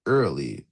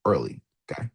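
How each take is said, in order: First: "early" dropped low and drawn out slowly; stress on early. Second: "early" said low and soft, then a rising okay; stress on early. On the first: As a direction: linger on "early", deep and deliberate. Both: Shown as a demonstration. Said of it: "emphasis on that word here".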